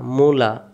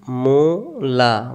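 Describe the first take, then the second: First: Said in the usual way. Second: Mula drawn out slowly; teacher slowing Mula down for the class; slow demo. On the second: Shown as a demonstration. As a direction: stretch Mula out syllable by syllable. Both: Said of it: "slow then normal take".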